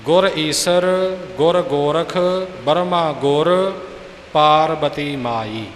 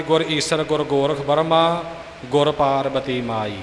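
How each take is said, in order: First: Slow, with Burma ਗੁਰ kept together; correct pauses. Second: Burma run on, ਗੁਰ tied to Parbati; phrase it as the common mistake, ਗੁਰ ਪਾਰਬਤੀ ਮਾਈ; wrong phrasing. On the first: Teacher showing the correct phrasing slowly. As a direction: pause after ਗੁਰ, then Parbati ਮਾਈ. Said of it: "ਇਹ ਉਚਾਰਨ ਸ਼ੁੱਧ ਹੈ ਜੀ". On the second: Teacher imitating the popular wrong phrasing. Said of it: "ਨਿਯਮ ਮੁਤਾਬਕ ਠੀਕ ਨਹੀਂ". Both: Shown as a demonstration.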